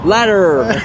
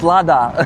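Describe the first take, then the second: First: The word is said in an American accent. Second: The word is said in a British accent. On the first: "in American English" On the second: "in British English, it's"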